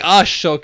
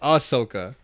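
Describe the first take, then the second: First: The middle consonant is a 'sh' sound. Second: The middle consonant is a plain 's' sound. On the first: The speaker calls it wrong. "You're saying Ashoka" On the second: The speaker calls it right. "It's Ahsoka"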